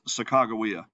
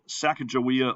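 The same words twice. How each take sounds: First: The name is said a less familiar, different way. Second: The name is said the familiar, commonly taught way. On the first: The speaker calls it right. "Her name really is Sacagawea" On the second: The speaker calls it wrong. "You've probably been taught to pronounce it Sacagawea"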